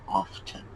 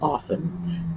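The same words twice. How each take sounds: First: The T in the middle is sounded. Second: The T in the middle is silent. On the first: This is the older form from about four hundred years ago. "The proper pronunciation was often" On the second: This is the later form after the change. "we gradually dropped the T and the proper pronunciation became often"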